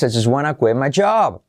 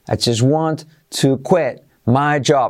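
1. 'Want to' se reduce a una sola palabra, 'wanna'. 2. 'Want to' se pronuncia como dos palabras completas.

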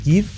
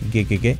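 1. La vocal es una 'i' tensa. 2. La vocal suena más cercana a una 'e'. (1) "Fijaos que no es give" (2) "la I como una E"

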